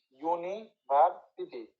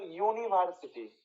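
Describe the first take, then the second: First: "university" slowly in parts, uni, ভার্, city; syllable breakdown. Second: Said in the usual way. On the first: Shown as a demonstration. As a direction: pause between the parts of "university". Teacher breaks word into parts. ("University" ভেঙে ভেঙে ধীরে)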